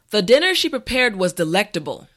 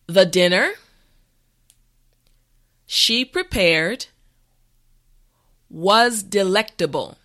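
First: The sentence is said at a natural pace. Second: The sentence is said slowly and carefully. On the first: "the last time at a regular pace" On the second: "this time repeat after me"

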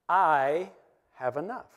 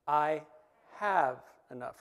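First: The word 'I' is stressed. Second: The word 'have' is stressed. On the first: "the first time we say it, we're going to emphasize the word I" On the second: "Second time we're going to say it, we're going to emphasize the word have"

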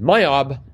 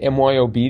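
First: It is said as a single word. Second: Each letter is said separately. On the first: "or would they pronounce it?" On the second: "would they even say it like that"

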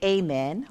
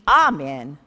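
First: The first vowel is a long A sound. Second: The first vowel is not a long A sound. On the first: "Some use the long A and say amen" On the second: "while others use the amen"

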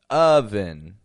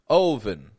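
First: The first vowel is a short 'uh' sound. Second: The first vowel is an 'oh' sound. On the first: The speaker calls it right. "They're all getting an sound, just a U" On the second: The speaker calls it wrong. "trying to make their sound match what their eyes are seeing"

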